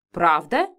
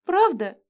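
First: Lower, firm "Правда?" as a statement; firm matron affirmation; categorical reply. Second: High pleading "Правда?"; whiny hopeful "Правда?"; plaintive question. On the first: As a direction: answer flatly, no doubt. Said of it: "категорично отвечала главная моительница". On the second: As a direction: ask it pitifully. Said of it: "жалобно спросила". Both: A narrator's reading.

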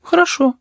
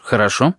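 First: Put-on very high, meek child's agreement; obedient boy. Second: Said in the usual way. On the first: A narrator's reading. Boy agreeing to the tutor, very high meek child's voice. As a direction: agree dutifully like a little boy. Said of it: "послушно согласился кузнечик".

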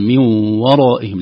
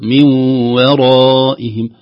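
First: "من ورائهم" with the waw made heavy; mock error in "ورائهم"; wrong heavy waw. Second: "من ورائهم" slow, light waw then heavy raa; slowly thin the waw in "ورائهم". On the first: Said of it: "لا، نقول". (تفخيم الواو خطأً في "ورائهم") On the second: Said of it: "نقول". ("ورائهم" بواو مرققة وراء مفخمة ببطء) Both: Shown as a demonstration.

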